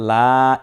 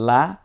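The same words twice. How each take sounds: First: লা stretched long and louder; one-alif elongation. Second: Said in the usual way. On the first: Shown as a demonstration. Teacher contrasting short and long vowel, drawn-out লা. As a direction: hold the vowel of লা. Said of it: "এক আলিফ টেনে বলবো". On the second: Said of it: "লকে normal জবর দিলে লা".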